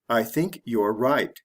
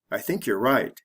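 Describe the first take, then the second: First: It is said slowly and fully. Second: It is said fast and reduced.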